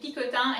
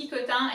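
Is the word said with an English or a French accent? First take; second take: French; French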